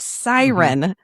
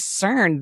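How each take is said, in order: First: The name is said as two syllables. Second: The name is said as one syllable. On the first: The speaker calls it right. "It's Siren" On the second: The speaker calls it wrong. "I said CERN"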